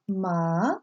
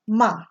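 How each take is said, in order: First: The pitch rises like a question. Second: The pitch falls sharply like a command. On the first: "Second tone is raised up like a question" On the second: "Fourth tone is a sharp, definitely"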